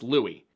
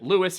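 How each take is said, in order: First: The final s is silent, French style. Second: The final s is clearly sounded. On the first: The speaker calls it wrong. "It's Louis. ... I refuse to pronounce French" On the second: The speaker calls it right. "why does Aiden keep pronouncing it Lewis?"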